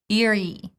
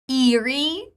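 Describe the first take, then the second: First: The first vowel is a short relaxed I. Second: The first vowel is a long E sound. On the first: The speaker calls it right. "First, neutral I sound and then long E" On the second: The speaker calls it wrong. "the mistake I make ... too long e"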